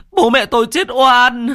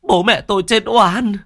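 First: Even higher, louder anguished wail; sobbing wail, stronger. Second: High, loud tearful lament; sobbing cry. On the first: Son repeating his cry for his parents, louder anguished wail. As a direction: push the grief further into a howl. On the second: Son crying over his wronged parents, loud sobbing lament. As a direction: cry out the injustice through tears. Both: Acted. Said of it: "mếu máo".

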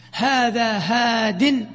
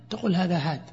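First: هاد drawn out slowly as hadin; very slow هذا هاد, sounding the nunation; هاد said hadin, slow and full; with tanween. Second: هاد cut short to ha; quiet pausal هاد, clipped to ha; pausal form. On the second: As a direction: stop on هاد without the nunation. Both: Shown as a demonstration.

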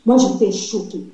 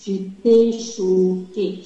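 First: Said in the usual way. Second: "choquée" stretched very slowly for emphasis; drawn-out CHOQUÉE. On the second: Real, not acted. Wife recounting her dream, "choquée" slowly drawn out. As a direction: drag out each syllable of "choquée".

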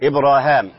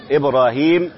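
First: إبراهام with a long aa before the final m; alif reading. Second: إبراهيم with a long ee before the final m; standard reading. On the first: Sheikh showing how Ibn Amir reads it, alif reading. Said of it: "يعني بالألف مكان الياء". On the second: Sheikh naming the word heard in the recitation, standard reading. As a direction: say إبراهيم with yaa, a long ee in the last syllable. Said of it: "حيث قرأها إبراهام". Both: Shown as a demonstration.

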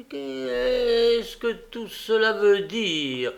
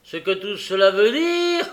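First: High, slow, drawn-out startled question; long alarmed exclamation; involuntary cry. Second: Loud, raised outraged question; angry incredulous repeat; furious echo. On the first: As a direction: blurt it out in a higher voice. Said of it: "S'écria involontairement la jeune fille". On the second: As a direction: throw the question back in fury, ending high. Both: A narrator's reading.

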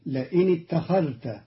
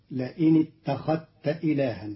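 First: اتخذت with a clear dhal; standard reading. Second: اتخذت with the dhal merged into the ta; Qalun's reading. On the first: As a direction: keep the dhal distinct in اتخذت. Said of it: "قرأ قالون كلمة اتخذت". (اتخذت بإظهار الذال) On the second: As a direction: say اتخذت as ittakhatta. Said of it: "بإدغام الذال في التاء". (إدغام الذال في التاء في اتخذت) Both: Shown as a demonstration.

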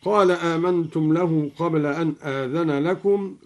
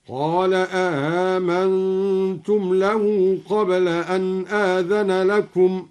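First: Said in the usual way. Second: Chanted آمنتم as "a-aamantum", second hamza softened; two hamzas, second softened. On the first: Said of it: "قرأ الدوري بهمزتين". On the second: Shown as a demonstration. Teacher shows al-Duri's reading, chanting آمنتم as "a-aamantum". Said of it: "هكذا".

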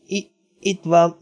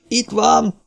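First: Slow, stammered, higher-pitched eerie voice; halting ghostly tone; sepulchral voice. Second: High cry of discovery; urgent high-pitched call; blaring shout. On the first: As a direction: falter it out slowly, as from the grave. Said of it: "hallották Missus Palmer síri hangját". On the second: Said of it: "harsant Cartwright kiáltása". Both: A narrator's reading.

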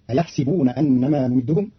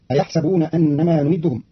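First: أيحسبون said "ayaḥsibun" with i after s; أيحسبون بكسر السين; sin with kasra. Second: Said in the usual way. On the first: Shown as a demonstration. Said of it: "بكسر السين". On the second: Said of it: "قرأ قالون كلمة أيحسبون بكسر السين".

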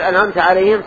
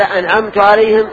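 First: "أنعمت" ending in -ta, addressing God; correct vowel, second person. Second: "أنعمت" ending in -tu, so the reader is the giver; wrong vowel, first person. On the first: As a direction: close "أنعمت" with a fatha, anʕamta. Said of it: "صار المنعم هو الله". ("أنعمت" بفتح التاء صوابًا) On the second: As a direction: close "أنعمت" with a damma, anʕamtu. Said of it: "صار المنعم هو القارئ". ("أنعمت" بضم التاء خطأً) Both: Shown as a demonstration.

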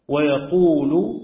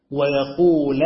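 First: ويقول read with final u, yaqūlu; ويقول in the raf' reading, ending yaqūlu. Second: ويقول read with final a, yaqūla; ويقول in the nasb reading, ending yaqūla. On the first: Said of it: "بالرفع". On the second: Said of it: "بالنصب". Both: Shown as a demonstration.

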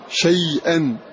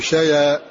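First: "شيئا" as shay-an, glottal stop after the y; hamza pronounced. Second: "شيئا" as sha-ya, no glottal stop; hamza dropped. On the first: Teacher showing the original word, "شيئا" with hamza pronounced. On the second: Teacher deleting the hamza, "شيئا" run together as shaya. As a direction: let y carry the vowel in "شيئا". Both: Shown as a demonstration. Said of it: "ونحذف الهمزة ونقول شيئا".

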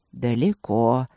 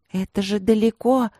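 First: Low, melodious, lilting word; singsong agreement. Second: Bewildered. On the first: Old tiger agreeing with the puzzled princess, singsong. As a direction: agree in a lower, singing tone. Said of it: "певуче согласился собеседник". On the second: Princess puzzled by the distant sign, bewildered. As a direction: stretch it out in higher-pitched bewilderment. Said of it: "с недоумением протянула она". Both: A narrator's reading.

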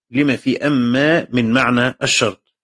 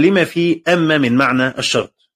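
First: Slow, deliberate repeat of لما في أما من معنى الشرط, word by word; slow repetition for emphasis. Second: Said in the usual way. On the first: Shown as a demonstration. Teacher repeats the phrase to his students, slowly. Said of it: "repeats the quoted phrase".

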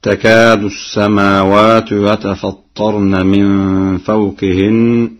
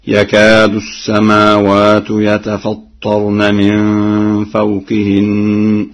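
First: Slow chant starting with تكاد; Quran recitation. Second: يكاد begun with ya, slow chant; Warsh reading. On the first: Hafs reading before Warsh. (تلاوة بالتاء) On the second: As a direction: start with يكاد, ya not ta. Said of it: "هكذا". (يكاد بالياء التحتية) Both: Shown as a demonstration.

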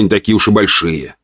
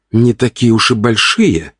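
First: Said in the usual way. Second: Slow, disbelieving question, pitched up; drawn-out indignant query; incredulous echo. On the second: A narrator's reading. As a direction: throw the words back in disbelief. Wife echoes his words indignantly.

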